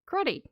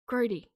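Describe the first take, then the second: First: The middle consonant is a clipped t sound. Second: The middle consonant is a soft d sound. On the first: This is how Australians say it. "technically it's with a T, but we do clip the T" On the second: This is how the other speaker says it. "I know the word she's saying"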